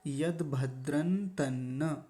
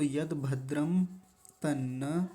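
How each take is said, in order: First: An n sound comes before 'tanna'. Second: An m sound comes before 'tanna'. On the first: "यानी न की आवाज़ आएगी यहाँ पर" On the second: "अनुस्वार लगा हुआ था... ऐसा भी बोलेंगे, वो भी गलत नहीं है"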